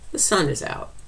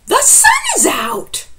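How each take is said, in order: First: It is said as a plain statement, falling. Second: It is said with excitement, as an exclamation.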